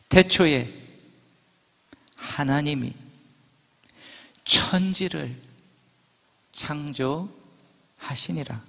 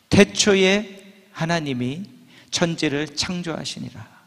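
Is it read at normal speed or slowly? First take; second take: slowly; normal. First: It is read slowly. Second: It is read at normal speed.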